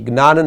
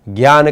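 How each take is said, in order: First: The word starts with a g sound. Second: The word starts with a j sound. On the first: The speaker calls it wrong. "ज्ञान नहीं बोलना है" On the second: The speaker calls it right. "हमें इसका उच्चारण क्या करना है, ज्ञान करना है"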